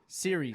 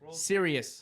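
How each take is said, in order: First: It is said like 'series', two syllables. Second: It is said like 'serious', three syllables. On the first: This is how the term really goes. The speaker calls it right. "How does it go? World Series" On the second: This is how someone else says it. The speaker calls it wrong. "How did I say it? Serious"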